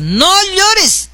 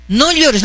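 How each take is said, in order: First: High-pitched, drawn-out "no llores"; acted exhortation. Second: Mildly raised, brief consoling plea; acted consoling. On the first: Telling a crying woman to stop, exhorting in a high voice. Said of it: "A mí me está contando llorar". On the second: Mother-in-law to the crying teacher, consoling. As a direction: gently tell her to stop crying. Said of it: "le habla a la profesora así".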